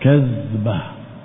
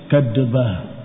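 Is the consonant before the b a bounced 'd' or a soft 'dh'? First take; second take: soft dh; bounced d. First: A soft 'dh' is said without a bounce. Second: A 'd' is said with a bouncing release. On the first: The speaker calls it right. "Kalau zal dengan titik tidak dibaca qalqalah" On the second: The speaker calls it wrong. "kalau dal tanpa titik, ... pakai kol-kola"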